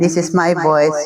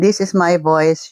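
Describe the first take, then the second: First: The voice has an added reverb echo. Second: The voice sounds clean with little background noise. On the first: "using reverb mode" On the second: "using Shisuo A six wireless microphone"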